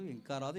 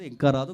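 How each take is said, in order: First: Said in the usual way. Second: ఇంకా రాదు called out much louder; anxious loud repeat. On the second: Shown as a demonstration. Father waiting for his daughter, growing loud and anxious. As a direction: let the worry burst out on ఇంకా రాదు.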